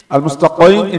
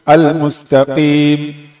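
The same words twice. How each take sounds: First: The qi sound is strong and heavy. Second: The qi sound is light and weak. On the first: The speaker calls it wrong. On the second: The speaker calls it right.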